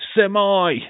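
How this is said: The word ends with an 'eye' sound. The speaker calls it wrong.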